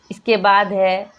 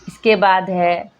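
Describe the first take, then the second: No difference in how they are said.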